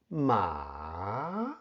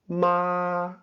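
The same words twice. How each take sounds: First: The pitch dips low and then rises. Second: The pitch stays high and level. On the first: "first falls and then rises" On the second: "The high flat tone is, of course, high and flat. It's also called the first tone"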